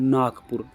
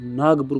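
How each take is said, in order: First: The consonant before pur is a voiceless k. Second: The consonant before pur is a voiced g. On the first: The speaker calls it right. "सही होता है दोस्तों नागपुर, नागपुर होता है दोस्तों नाक plus पुर" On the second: The speaker calls it wrong. "परंतु अपन उसे क्या बोलते हैं दोस्तों, नागपुर बोलते हैं"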